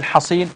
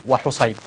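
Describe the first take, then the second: First: حصين said Hasin, with a and long i; fatha on first letter. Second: وحصيب said wa-Husayn, with u and ay; damma on first letter. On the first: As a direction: say حصين as Hasin, not diminutive. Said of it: "أو يقول بفتح الجيم". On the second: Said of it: "فيقال بضم أوله". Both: Shown as a demonstration.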